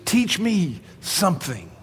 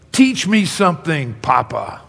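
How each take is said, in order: First: Slow reflective. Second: Mock excited kid asking; half yelled, excited grandson; eager child. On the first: Shown as a demonstration. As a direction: linger on each word as a lesson. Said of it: "That's what picture of meekness is". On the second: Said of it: "excitedly, he almost yells it".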